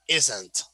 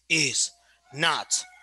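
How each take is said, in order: First: It is said as one short contracted word. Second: It is said as two separate full words. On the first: "you just say isn't, and it's shorter" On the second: "instead of saying is, not"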